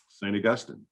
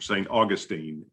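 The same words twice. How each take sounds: First: It uses the general, non-local pronunciation. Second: It uses the local Florida pronunciation.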